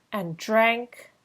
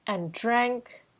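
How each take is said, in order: Both takes have the same delivery.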